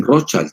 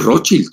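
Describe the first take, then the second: First: Put-on Rothschild ending like English "child"; English pronunciation. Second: Rothschild said the German way, with a short i at the end; German pronunciation. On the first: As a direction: say Rothschild as "ROTH-chaild". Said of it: "como si era child de niño". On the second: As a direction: say Rothschild as "ROT-shild". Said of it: "En alemán es Rothschild". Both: Shown as a demonstration.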